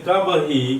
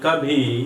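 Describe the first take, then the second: First: A plain b is followed by a separate hi. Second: The b and h merge into an aspirated bh.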